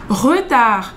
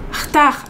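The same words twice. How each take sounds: First: It is said slowly and carefully. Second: It is said quickly with a casual R. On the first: "quando tá falando lento" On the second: "É só esse R, assim"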